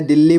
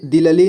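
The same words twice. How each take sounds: First: "दिल्ली" as dil-li, the double ल joined; read in one go. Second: "दिल्ली" misread as di-la-li, in three syllables; wrong split reading. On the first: Teacher showing learners the right reading, "दिल्ली" in one go as dil-li. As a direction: say "दिल्ली" in two syllables, no vowel between the ल sounds. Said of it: "एक ही बार में". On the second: Teacher warning learners how not to read it, "दिल्ली" wrongly split as di-la-li. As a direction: put a short vowel between the two ल sounds of "दिल्ली". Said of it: "दिल्ली नहीं पढ़ना है". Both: Shown as a demonstration.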